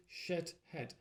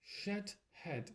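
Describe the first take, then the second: First: "Shit head" said slowly and clearly, stress on shit; teacher models "Shit head", shit stressed. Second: Said in the usual way. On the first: Shown as a demonstration. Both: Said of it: "How to pronounce it?".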